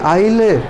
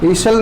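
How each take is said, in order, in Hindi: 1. स्वर के बाद s मौन है। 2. स्वर के बाद s का उच्चारण होता है। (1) "एस साइलेंट हियर" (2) "ईसल नहीं कहेंगे"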